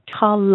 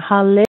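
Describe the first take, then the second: First: The second vowel is a reduced schwa. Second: The second vowel is a full vowel. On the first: The speaker calls it right. "don't forget there's a schwa there" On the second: The speaker calls it wrong. "instead of saying halle"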